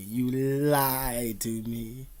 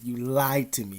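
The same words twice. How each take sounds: First: Very slow, stretched, rising at the end; slow drawn-out accusation. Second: Said in the usual way. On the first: Retold or imitated. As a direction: drag every word out in reproach. Repeats the accusation twice.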